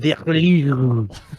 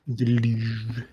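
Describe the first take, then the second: First: It is said in a drawn-out, throaty mock-French voice. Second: It is said plainly, in an ordinary accent. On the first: The speaker calls it right. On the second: The speaker calls it wrong.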